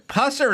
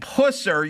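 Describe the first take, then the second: First: The first syllable sounds like the word pus. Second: The first syllable sounds like the word puss. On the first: The name suggests something medical and unpleasant. "if you're a dermatologist, it would work" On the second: The name suggests weakness or cowardice. "that sounds like pussy"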